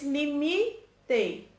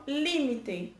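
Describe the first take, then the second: First: "limite" drawn out as li-MI-te; stress on middle syllable. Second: "límite" said LÍ-mi-te; stress on first syllable. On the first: Teacher showing Portuguese word stress, middle syllable of "limite". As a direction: lean long on "mi" in "limite". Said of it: "No português". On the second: Teacher showing Spanish word stress, first syllable of "límite". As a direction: punch the opening "lí" of "límite". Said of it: "No espanhol". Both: Shown as a demonstration.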